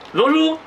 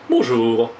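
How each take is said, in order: First: The pitch keeps going and rises at the end. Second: The pitch falls and stops at the end. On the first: The speaker calls it right. "il y a une chose qui se poursuit, qui ne s'arrête pas. Alors, il faut dire" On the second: The speaker calls it wrong. "de ne pas dire bonjour, ça va, hein, comme nous pouvons le faire ... et nous descendons"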